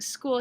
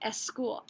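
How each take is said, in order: First: The word starts directly with the s sound. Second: A short vowel is added before the s sound. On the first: The speaker calls it right. "Instead of saying school" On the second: The speaker calls it wrong. "He would add the schwa sound, a stress vowel, in front of the initial S"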